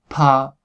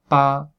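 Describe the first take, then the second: First: The p is aspirated, with a puff of air. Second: The p is plain, with no puff of air.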